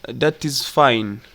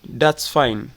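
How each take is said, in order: First: Both words 'that is' are said in full. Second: 'That is' is shortened to a single contracted syllable. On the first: "that's fine is like that is fine" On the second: "in fast speech we say that's fine"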